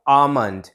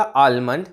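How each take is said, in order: First: आमंड with a silent L; correct almond pronunciation. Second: आलमंड with the L clearly sounded; mispronounced almond. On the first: Teacher contrasting the correct word for learners, silent L. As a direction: say आमंड, long first vowel straight into M. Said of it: "correct pronunciation क्या बोल रहा हूँ". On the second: Teacher repeating the wrong version for learners, L sounded. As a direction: put an L before the M in आलमंड. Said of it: "जिसमें एक ल का sound". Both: Shown as a demonstration.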